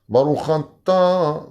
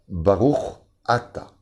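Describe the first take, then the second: First: The final sound runs into the next word. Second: The two words are kept cleanly apart. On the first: It sounds like saying the blessing sinned. The speaker calls it wrong. "il y a toujours un problème" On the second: It says blessed are You. The speaker calls it right. "On ne colle pas le Chaf au Aleph"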